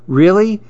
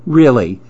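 First: "Really" pitched high as a question; surprised question. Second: "Really" falling, at normal pitch, as a statement; settled, falling "Really"; confirming answer. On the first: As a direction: ask "Really" in hopeful surprise. Friend questions a surprise offer. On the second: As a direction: confirm "Really" with a firm fall. Friend confirms the offer. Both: A narrator's reading.

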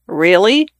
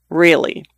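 First: "Really?" rising at the end in doubt; incredulous "Really?" going up; questioning rise. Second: "Really." level and falling, settled; firm "Really." falling at the end; flat answer. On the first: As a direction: ask "Really?" with the voice lifting up. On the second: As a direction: state "Really." flatly, closing it off. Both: Acted. Doubtful question, then flat answer.

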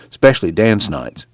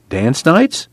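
First: Said in the usual way. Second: Higher, rising question; surprised echo. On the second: A narrator's reading. Newcomer echoing the camp watchman, surprised.

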